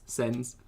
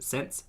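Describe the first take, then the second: First: Said in the usual way. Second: "sends" ending in a crisp -ts, like "sents". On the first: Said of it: "But sends?". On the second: Shown as a demonstration.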